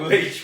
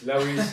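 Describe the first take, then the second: First: The name is said as one syllable, 'Leash'. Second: The name is said as two syllables, 'Lewis'. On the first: The speaker calls it right. "apparently it's Port Leash" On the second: The speaker calls it wrong. "I called it"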